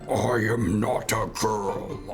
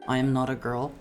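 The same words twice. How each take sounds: First: It is said in a deep Black Doom voice. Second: It is said in the speaker's natural voice.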